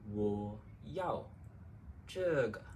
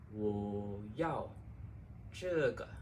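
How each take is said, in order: Both takes have the same delivery.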